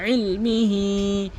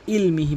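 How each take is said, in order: First: ইলমিহি chanted slowly from a squeezed throat; correct Ayn. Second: ইলমিহি quick, with plain "il"; hamza for Ayn. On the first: Teacher modelling for learners, slow ইলমিহি with Ayn. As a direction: start ইলমিহি with Ayn, hold the ending. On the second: Teacher showing the common error, plain quick ইলমিহি. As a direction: say ইলমিহি briskly, no throat sound. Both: Shown as a demonstration. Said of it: "হামজার উচ্চারণ করে ফেলে".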